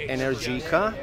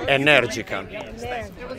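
First: The name is said with American pronunciation. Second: The name is said with Italian pronunciation.

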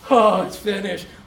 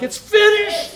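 First: It sounds weak and defeated. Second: It sounds strong and triumphant.

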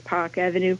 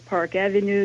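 First: The R sound in Park is dropped. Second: The R sound in Park is pronounced. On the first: "you would say Park Avenue" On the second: "Instead of Park Avenue"

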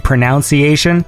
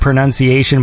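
First: The second syllable sounds like 'noun'. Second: The second syllable sounds like 'nun'. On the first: The speaker calls it wrong. "but I say pronunciation" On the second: The speaker calls it right. "if I ever say the word pronunciation"

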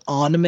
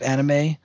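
First: The first vowel is an exaggerated open 'ah'. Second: The first vowel is said in the plain way. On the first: This is a pretentious way of saying it. "the type of guy who says anime instead of anime" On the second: This is the ordinary way of saying it. "instead of anime"

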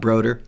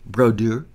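First: The name is said with an English accent. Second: The name is said with a French accent. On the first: The speaker calls it wrong. "Not Broder" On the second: The speaker calls it right. "That's my best French accent right there"

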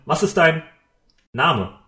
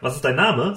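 First: It is said with an odd pause inside. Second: It is said smoothly without a pause.

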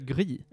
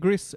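First: The final s is silent. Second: The final s is pronounced. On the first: "eller Gri" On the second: "antingen Gris"

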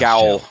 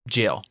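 First: It is read as spelled, with a hard G. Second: It is said like jail, with a J sound. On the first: This is a guess from the spelling. "how would you pronounce it if you didn't know it was pronounced" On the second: This is the accepted pronunciation. "It is jail"

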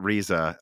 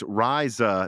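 First: The first vowel differs from the one in sky. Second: The first vowel sounds like the one in sky. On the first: The speaker calls it wrong. "not Riza" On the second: The speaker calls it right. "he says that's Riza"

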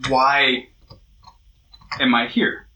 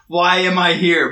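First: It sounds like a sincere, open question. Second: It sounds like a frustrated, complaining question.

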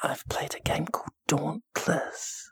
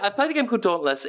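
First: The sentence is spoken in a whisper. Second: The sentence is spoken in a normal voice.

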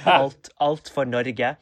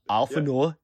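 First: It is said with a Norwegian pronunciation. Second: It is said with a Danish-sounding pronunciation. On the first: The speaker calls it right. "instead of saying alt for Norge" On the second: The speaker calls it wrong. "he says alt for Norge ... so Danish and is just therefore not Norwegian"

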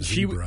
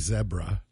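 First: It is said with an American pronunciation. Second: It is said with a British pronunciation. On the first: "Instead of zebra" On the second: "in Great Britain they say zebra"

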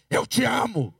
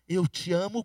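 First: It is said in an aggressive, hostile tone. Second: It is said in a gentle, loving tone.

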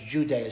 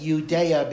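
First: The name begins with a J sound. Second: The name begins with a Y sound. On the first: This form came in through Greek. "every Y becomes a J sound" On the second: This is the original Hebrew form. "every Y becomes a J sound"

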